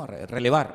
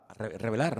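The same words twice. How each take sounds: First: Relevar said right after a stumble on re-; fixing the slip with relevar; self-correction. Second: Revelar said with the r and l swapped by mistake; a quick mistaken revelar, then catch it; tongue-slip revelar. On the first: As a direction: correct yourself: relevar, l before v. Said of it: "¿no?". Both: Real, not acted.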